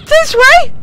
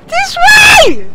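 First: High, loud call; urgent call. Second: Much higher, louder yell; full shout. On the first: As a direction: call the plane over. Directing plane, rising frustration. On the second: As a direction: bellow it the second time. Repeats it louder. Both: Real, not acted.

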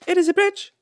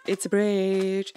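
First: High, loud emphatic cheer; excited triumph. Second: Slow, stretched announcement; drawn-out triumph. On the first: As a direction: insist on it loudly and high. Repeats triumph over bridge. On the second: First announcement of finished bridge. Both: Real, not acted.

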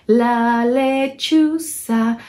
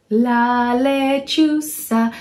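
No difference in how they are said.

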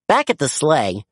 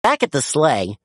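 Both takes have the same delivery.

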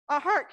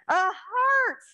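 First: Said in the usual way. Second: Bright and lifted; excited. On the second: Real, not acted. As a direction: cheer the answer. Excited child answer confirmed.

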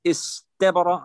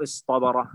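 First: استبر with a light t after the s; plain ta. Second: اصطبر with a heavy dark T after the s; emphatic Ta. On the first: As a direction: say استبر slowly as is-tabara, plain t. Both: Shown as a demonstration. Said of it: "أيسر".

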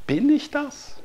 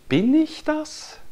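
First: Much higher, odd-toned Bin ich das; rhetorical wonder. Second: Slow, much higher questioning Bin ich das; rhetorical wonder. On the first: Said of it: "Wer ist das?". (staunend hoch gefragt) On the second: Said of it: "Oder wer ist das?". (langsam und staunend hoch gefragt) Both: Acted. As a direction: ask it in wide-eyed wonder.

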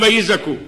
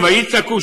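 First: "ויזעקו" with a voiced z; zayin sound. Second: "ויצעקו" with a crisp ts; tsadi sound. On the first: Preacher contrasts two biblical verbs, "ויזעקו" with z. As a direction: say "ויזעקו" with z, not ts. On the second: Preacher contrasts two biblical verbs, "ויצעקו" with ts. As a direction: say "ויצעקו" with ts, not z. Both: Shown as a demonstration. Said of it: "שניים ויצעקו, שניים ויזעקו".

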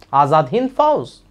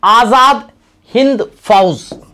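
First: Said in the usual way. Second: Azad Hind Fauj loud and raised, Azad climbing; emphatic name. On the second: Shown as a demonstration. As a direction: proclaim Azad Hind Fauj loudly, each word weighted. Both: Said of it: "changed the name to".

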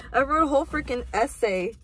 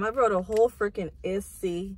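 First: Said in the usual way. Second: "essay" slipped into "issy", ending in ee; mispronounced ESSAY. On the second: Real, not acted. Vlogger fumbling the word while writing a note, "essay" mispronounced as "issy". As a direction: say "essay" as "ISS-ee". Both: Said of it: "did I just say essay?".

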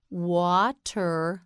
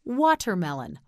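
First: "Watermelon" split into wa... ter... melon; syllable by syllable. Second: Said in the usual way. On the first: Shown as a demonstration. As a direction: pause between the parts of "Watermelon". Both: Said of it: "You say it".

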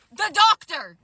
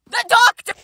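First: Said in the usual way. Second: Higher and louder, rising in disbelief; shocked realization. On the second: Real, not acted. Telling viewers who was at the window, shocked and louder. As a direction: hit it like a shocking reveal. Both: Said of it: "repeat for punch".

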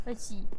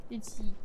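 No difference in how they are said.

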